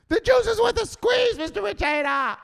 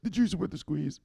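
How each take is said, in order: First: Very high, loud screech; desperate full-out yell. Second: High, small underling voice; meek recital. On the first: Beaten underling proving conviction to boss, desperate screech. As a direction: scream it like you mean it. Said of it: "Say it like you mean it". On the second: Underling ordered by boss to say it, meek recital. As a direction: repeat it obediently without force. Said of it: "So say it". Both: Acted.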